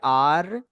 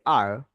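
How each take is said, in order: First: The r is tapped against the palate. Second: The r is curled back without touching. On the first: "Hindi में टकराती है आर" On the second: "English में घूम जाएगी आर"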